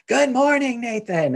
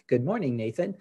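First: It is said loudly, as a shout. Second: It is said at a normal, friendly volume.

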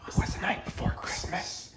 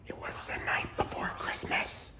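First: It is said at normal loudness. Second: It is said in a lowered, quiet voice.

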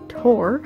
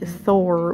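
First: The name begins with a plain T sound. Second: The name begins with a TH sound. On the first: The speaker calls it right. "I am pronouncing Tor correctly" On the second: The speaker calls it wrong. "butcher the name and say Thor with a TH sound"

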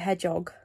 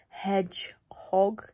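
First: The word is said fast, run together as one. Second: The word is said slowly, in two clear parts. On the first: The speaker calls it wrong. "I just say it really fast and as one word" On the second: The speaker calls it right. "it's actually like hedgehog"

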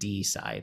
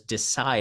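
First: The stress falls on the first syllable. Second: The stress falls on the second syllable. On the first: The speaker calls it wrong. "more so than decide" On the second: The speaker calls it right. "We pronounce it more as decide"

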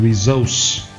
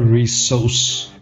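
First: The middle consonant is a Z sound. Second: The middle consonant is an S sound. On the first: It means the intended noun. The speaker calls it right. "This is resource. Z" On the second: It means a different word. The speaker calls it wrong. "not resource. That is something else"

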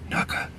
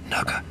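The two takes are said the same way.

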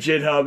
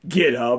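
First: The word begins with a soft J sound. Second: The word begins with a hard G sound. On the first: This is the speaker's personal pronunciation. "I pronounce it JitHub" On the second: This is the standard pronunciation. "even though it's pronounced GitHub"

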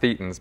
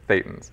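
First: Thetans is given the British pronunciation. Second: Thetans is given the standard pronunciation. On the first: The speaker calls it wrong. "not Thetans ... You get the British always mispronouncing that" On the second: The speaker calls it right.

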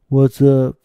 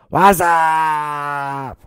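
First: It is said in a plain, casual voice. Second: It imitates the Budweiser commercial's drawn-out greeting.

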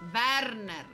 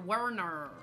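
First: The name is pronounced the Japanese way. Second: The name is pronounced the English way.

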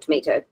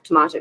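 First: The word is said with an American pronunciation. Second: The word is said with a British pronunciation. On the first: "and American English" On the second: "from British English"

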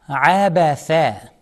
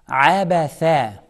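No difference in how they are said.

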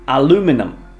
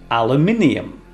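First: It is said in American English. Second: It is said in British English.

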